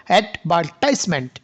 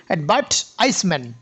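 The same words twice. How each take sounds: First: অ্যাডভার্টাইজমেন্ট stressed on -TISE-, American style; American advertisement. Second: অ্যাডভার্টাইজমেন্ট stressed on -VER-, British style; British advertisement. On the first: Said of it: "আমেরিকানরা আবার অ্যাডভার্টাইজমেন্টকে কি বলে". (American উচ্চারণে অ্যাডভার্টাইজমেন্ট) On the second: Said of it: "ব্রিটিশরা বলে কি". (British উচ্চারণে অ্যাডভার্টাইজমেন্ট) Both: Shown as a demonstration.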